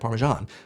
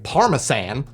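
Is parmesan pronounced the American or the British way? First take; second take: American; British. First: It is said with an American pronunciation. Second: It is said with a British pronunciation.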